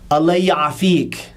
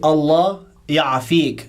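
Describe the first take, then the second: First: The first word runs into the second. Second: The two words are said separately. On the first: The speaker calls it right. "this goes into the ya" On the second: The speaker calls it wrong. "you don't say Allah ya'afik so much"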